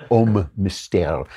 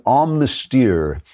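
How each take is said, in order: First: Slow, careful French pronunciation of Homme Mystère; French accent. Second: Slow, hammed-up French pronunciation; a deliberately clumsy French accent; bad French accent. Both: Shown as a demonstration. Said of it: "that's my bad French accent".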